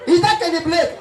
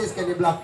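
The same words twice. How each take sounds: First: High squeaked Kenny Blake; mispronounced name. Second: Said in the usual way. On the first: Retold or imitated. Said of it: "their voice dey high".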